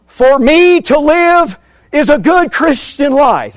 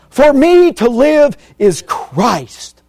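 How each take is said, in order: First: High, loud, slow mock quote of Paul; hammed-up wrong version, pitched high. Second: High, loud, very slow proclamation; correct quote, emphatic. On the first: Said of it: "Is that what he said?". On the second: Shown as a demonstration. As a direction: spell out the true words slowly and forcefully. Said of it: "That's what he says".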